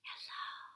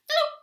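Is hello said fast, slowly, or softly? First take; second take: softly; fast. First: It is said quietly. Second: It is said quickly.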